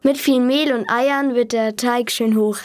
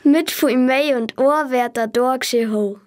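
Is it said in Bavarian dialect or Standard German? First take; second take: Standard German; Bavarian. First: It is said in Standard German. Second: It is said in Bavarian dialect.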